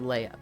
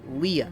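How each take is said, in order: First: The name rhymes with day. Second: The name rhymes with see. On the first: The speaker calls it wrong. "I see L E I G H and I think slay. So that's why I said" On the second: The speaker calls it right. "but it's"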